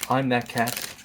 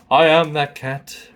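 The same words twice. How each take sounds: First: Said in the usual way. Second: "I am" drawn out slow and loud; slow, forceful "I am", voicing the cat; emphatic cat boast. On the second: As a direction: stretch "I am" into a proud declaration. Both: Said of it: "She just wanted to show everyone".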